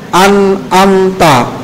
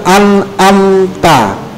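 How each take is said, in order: Both takes have the same delivery.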